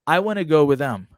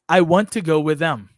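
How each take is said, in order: First: Want to is reduced to wanna without t. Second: Want to is said in full with the t. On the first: The speaker calls it right. "o want to vira wanna" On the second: The speaker calls it wrong. "se você fala tudo, não soa tão natural"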